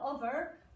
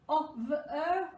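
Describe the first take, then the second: First: The first vowel is a short o sound. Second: The first vowel is a long o sound. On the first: The speaker calls it wrong. "not over" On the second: The speaker calls it right. "That's a split digraph O"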